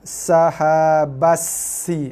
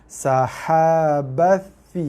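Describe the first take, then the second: First: The consonant is a plain hissed s sound. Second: The consonant is a th sound, tongue touching teeth. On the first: The speaker calls it wrong. "Ramai baca dengan makhraj sin" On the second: The speaker calls it right. "Jaga tha"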